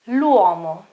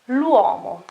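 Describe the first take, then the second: First: The article is joined onto the noun as one word. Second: The same.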